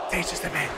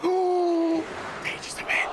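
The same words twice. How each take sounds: First: Said in the usual way. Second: Slow breathy whisper. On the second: Acted. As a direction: whisper it slowly and dramatically. Whispered catchphrase.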